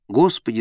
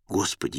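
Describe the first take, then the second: First: Restrained cry for help; narrated cry. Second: Low, soft narrated appeal; quiet address. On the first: Sinking Peter calls to the Lord, mildly crying out. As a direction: call out a little, understated urgency. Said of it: "закричал он". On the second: Peter asks the Lord to call him, low and quiet. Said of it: "Тогда Пётр проговорил". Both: A narrator's reading.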